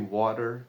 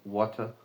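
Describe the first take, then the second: First: It is said in a non-British accent. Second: It is said in a British accent.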